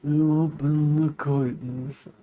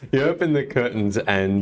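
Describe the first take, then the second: First: It is said in the Round Terry voice. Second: It is said in his normal voice.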